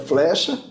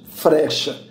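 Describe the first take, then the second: First: The f is followed by an l sound. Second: The f is followed by an r sound. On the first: "O fe, lê" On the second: "E ferê"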